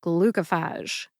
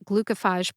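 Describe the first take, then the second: First: "glucophage" slowly, ending in "fahzh"; confirmed pronunciation. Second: "glucophage" ending in "fayj", long A; alternative pronunciation. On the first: Pharmacist confirming the sponsor's version, slow "glucophage" ending "-fahzh". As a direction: say "glucophage" clearly as GLU-kuh-fahzh. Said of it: "the spoken pronunciation is". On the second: Pharmacist citing a variant heard elsewhere, "glucophage" ending "-fayj". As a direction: say "glucophage" as GLU-kuh-fayj. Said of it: "I have heard glucophage pronounced glucophage as well". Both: Shown as a demonstration.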